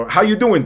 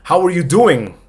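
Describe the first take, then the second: First: "How you doing?" run together with "are" dropped; casual reduced form. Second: Said in the usual way. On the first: Shown as a demonstration. Teacher shows fast speech, casual reduced form. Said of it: "no suena el R". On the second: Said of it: "Cuando lo dicen rápido".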